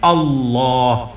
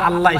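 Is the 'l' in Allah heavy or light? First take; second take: heavy; light. First: The l is heavy, said with a full, rounded mouth. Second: The l is light and thin, mouth not rounded. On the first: The speaker calls it right. "একেবারে মুখটা ভরে বলবেন" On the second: The speaker calls it wrong. "এই পাতলা আল্লাহ আল্লাহ এই শব্দটা উচ্চারণ সঠিক নয়"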